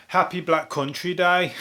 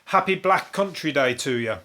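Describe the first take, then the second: First: Slow, drawn-out Black Country accent. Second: Said in the usual way. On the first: Shown as a demonstration. Greeting listeners as a local would, in a Black Country accent. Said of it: "how you say it if you're from the Black Country". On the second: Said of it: "That's how you say it if".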